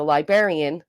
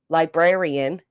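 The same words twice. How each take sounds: First: "librarian" without the first R, "lie-berrian"; dropped-R pronunciation. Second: "Librarian" with both Rs, "lie-BRAIR-ian"; full-R pronunciation. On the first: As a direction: say librarian as "lie-BERR-ian". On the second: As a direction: say Librarian with the BR sounded. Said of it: "as a librarian". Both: Shown as a demonstration.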